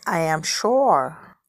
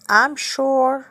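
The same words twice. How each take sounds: First: Slow "I am", two separate words; uncontracted "I am" before a long "sure"; full form. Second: "I'm" as one syllable, higher and louder; short, strong "I'm" before "sure"; contracted form. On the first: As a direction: say "I am sure" word by word, lower. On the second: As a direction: run I and am together into "I'm". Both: Shown as a demonstration. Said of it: "طريقة النطق صحيح".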